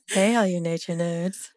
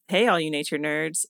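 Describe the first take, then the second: First: It is said in a low, sultry voice. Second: It is said in a plain, normal voice.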